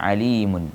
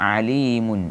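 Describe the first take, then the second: The two takes are said the same way.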